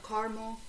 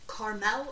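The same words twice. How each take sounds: First: Caramel said as "CAR-mul", ending in a dark "mo" sound; CAR-mul pronunciation. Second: Caramel said as "CAR-mel", with a clear "mel"; CAR-mel pronunciation. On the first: Host comparing ways people say caramel, "CAR-mul" pronunciation. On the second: Host comparing ways people say caramel, "CAR-mel" pronunciation. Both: Shown as a demonstration. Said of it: "couple different ways people say it".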